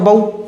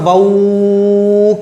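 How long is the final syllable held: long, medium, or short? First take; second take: short; long. First: The syllable is clipped very short and fast. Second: The syllable is stretched out for a long time. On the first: "ऐसे भी नहीं पढ़ेंगे, क्योंकि ना तो ये जल्दी पढ़ा जाएगा" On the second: "खींच खींचते चले जाएं, नहीं ना"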